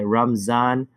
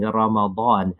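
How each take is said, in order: First: The middle consonant is a z sound. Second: The middle consonant is a distinct emphatic d. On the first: "calls it Ramzan with a Z" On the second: "make the dad very distinct"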